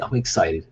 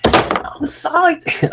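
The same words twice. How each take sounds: First: Said in the usual way. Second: Very high, stretched-out excited squeal; Mike Myers. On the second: Acted. Creator spoofing a film character, drawn-out giddy squeal. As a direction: squeal it slowly in a silly giddy voice. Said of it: "there's always a Mike Myers ref".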